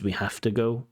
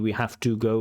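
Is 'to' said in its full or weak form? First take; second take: weak; full. First: The word 'to' has a weak vowel. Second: The word 'to' has a full vowel. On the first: The speaker calls it right. "the most natural pronunciation of this is" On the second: The speaker calls it wrong. "we hear this to, this full form of to"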